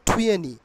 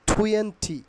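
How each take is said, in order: First: The t sound after n is dropped. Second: The t sound after n is clearly pronounced.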